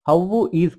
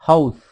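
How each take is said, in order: First: Two separate words, with 'is' said in full. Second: One short word, with 'is' reduced to 's'.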